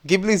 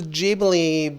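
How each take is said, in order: First: The word begins with a hard G sound. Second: The word begins with a soft sound. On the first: This is the speaker's chosen way to say it. "hard G, hard G sound" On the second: Some other people say it this way. "I know some people are like"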